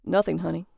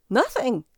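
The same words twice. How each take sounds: First: Recovered manly voice, composed; casual husband back in his normal register; man's voice. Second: Startled, high little squeak; jumpy higher-pitched yelp. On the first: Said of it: "He retrieved his man's voice". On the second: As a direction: squeak it out, caught off guard. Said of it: "he squeaked". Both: A narrator's reading.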